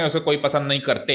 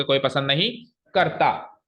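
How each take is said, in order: First: Said in the usual way. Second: Slow, pause before "करता"; stress on करता. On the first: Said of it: "ऐसे तो ना कहोगे". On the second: Shown as a demonstration. Teacher giving the right verb form, "करता" set apart after a pause. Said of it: "आप ऐसे कहोगे".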